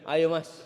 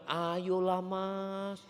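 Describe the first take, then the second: First: It is said in a plain, ordinary voice. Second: It is said in a soft, sweet, coaxing voice.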